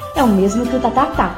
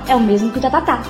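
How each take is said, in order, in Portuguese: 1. A frase é dita em ritmo devagar. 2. A frase é dita em ritmo rápido.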